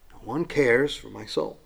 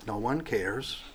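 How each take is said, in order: First: Said in the usual way. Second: Soft, sad, hushed; hushed lament. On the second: Acted. Preacher voicing David's despair, hushed and sad. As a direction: let it fall almost to nothing. Repeats the verse's ending.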